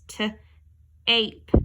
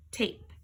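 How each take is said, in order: First: T-ape drawn out slowly; slow segmented t-ape. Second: Said in the usual way. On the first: Shown as a demonstration. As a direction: stretch t-ape. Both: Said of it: "changes that A from an A to an A".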